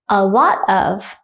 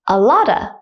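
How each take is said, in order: First: The word of is pronounced in full. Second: Of is reduced to a schwa sound.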